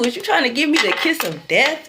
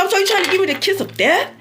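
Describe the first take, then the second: First: Said in the usual way. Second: Fast, high-pitched questioning; indignant retold challenge. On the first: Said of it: "That's what I asked him". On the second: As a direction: fire the question out quick and high. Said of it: "I was talking just like this".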